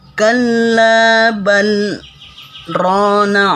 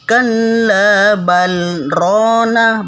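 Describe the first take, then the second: First: A brief held stop comes after bal. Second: The l is kept, but there is no pause. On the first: The speaker calls it right. "berhenti sejenak dan ditahan napas" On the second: The speaker calls it wrong. "bukan juga"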